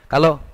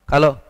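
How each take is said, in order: The two takes are said the same way.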